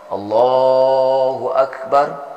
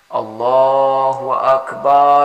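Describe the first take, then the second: First: Akbar ends on a silent r without vowel. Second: Akbar ends with an a vowel after r. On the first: "kita matikan ro-nya" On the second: "seolah ra itu barisnya atas"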